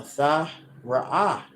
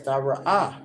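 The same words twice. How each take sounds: First: "tha ra'ah" very slow, with gaps between syllables. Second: Said in the usual way. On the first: Shown as a demonstration. Teacher introducing "tha ra'ah" to viewers, slowly syllable by syllable. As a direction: sound out "tha ra'ah" piece by piece. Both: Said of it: "ra'ah means to look".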